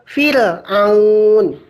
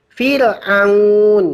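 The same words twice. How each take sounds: No difference in how they are said.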